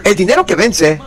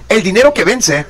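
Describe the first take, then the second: No difference in how they are said.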